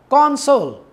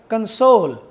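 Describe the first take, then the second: First: The stress is on the first syllable. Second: The stress is on the second syllable.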